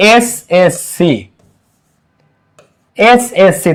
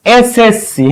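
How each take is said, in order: First: SSC slowed, each letter said separately; slow, spaced-out letters in SSC. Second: Said in the usual way. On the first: Shown as a demonstration. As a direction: spell out SSC slowly for the class. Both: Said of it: "প্রথম অক্ষরটা উচ্চারণ হবে".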